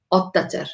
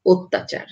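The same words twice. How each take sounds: First: অত্যাচার with an open ɔ first vowel; অত্যাচার read as spelled, ɔttachar; read as written. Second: অত্যাচার with an o first vowel, ottachar; অত্যাচার said the spoken way; spoken pronunciation. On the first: (অত্যাচার লিখিত রূপে) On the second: (অত্যাচার ও-কারের মতো উচ্চারণে) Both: Shown as a demonstration. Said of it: "জফলা যুক্ত হবে তখন".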